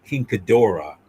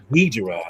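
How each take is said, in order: First: King Ghidorah as king guh-DOR-uh, three syllables; Japanese-style pronunciation. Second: "Ghidra" squeezed into two syllables, GHEE-druh; English pronunciation. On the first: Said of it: "correct con-, uh, pronunciation". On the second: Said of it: "that's how it's pronounced". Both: Shown as a demonstration.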